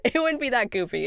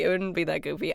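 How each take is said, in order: First: Laughing it off, higher; a self-conscious giggle through the line; half-laughing correction; giggly. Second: Said in the usual way. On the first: Real, not acted. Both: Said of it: "I just can't do the voice acting".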